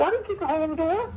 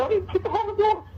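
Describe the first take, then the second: First: High, fast, lightly strained denial; defensive squeak when retelling his own words; squeaky denial. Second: Very high, fast pleading denial; high pleading protest to his wife; squeaky pleading denial. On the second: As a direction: beg her to believe him, pitched way up. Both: Retold or imitated. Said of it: "his voice gets all low and squeaky".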